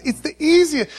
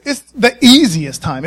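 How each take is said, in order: First: Said in the usual way. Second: Easiest leaned on, a bit louder; stress on easiest. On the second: Shown as a demonstration. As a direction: hit the word easiest. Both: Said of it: "Let me say it like this".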